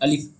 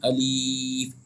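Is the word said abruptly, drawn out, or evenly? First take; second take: abruptly; drawn out. First: The word is cut off with a sharp jolt. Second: The vowel is stretched out long. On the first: "इस तरीके से झटका भी नहीं देना है" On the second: "अलिफ को हमें खींचना भी नहीं है, अलीफ इस तरह से भी नहीं पढ़ना है"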